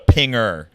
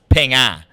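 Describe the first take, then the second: First: It is said with an American R ending. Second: It is said with no R ending. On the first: "if it was an American slang term, we would call it a pinger" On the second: "because their accent, it's pinga"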